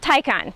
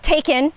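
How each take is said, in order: First: The first syllable sounds like 'Thai'. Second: The name sounds like the word 'taken'. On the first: The speaker calls it right. "So it's like um, Thai convention" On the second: The speaker calls it wrong. "Is it taken?"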